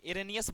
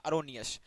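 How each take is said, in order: First: The word begins with a short 'ih' sound. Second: The word begins with a short 'uh' sound. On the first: The speaker calls it wrong. "इरेनियस बहुत लोग पढ़ लेते हैं" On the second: The speaker calls it right. "लेकिन इसको आप लोग पढ़िएगा अरोनियस"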